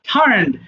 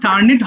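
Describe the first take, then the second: First: The ending is a plain 'd' with no extra syllable. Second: The ending is said as an extra 'it' syllable. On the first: The speaker calls it right. "এটা হবে টার্নড হবে" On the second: The speaker calls it wrong. "টার্নিট হবে না"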